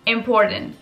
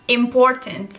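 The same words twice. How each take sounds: First: The t after the n is dropped. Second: The t after the n is clearly pronounced. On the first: "c'est important" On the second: "pour le mot important"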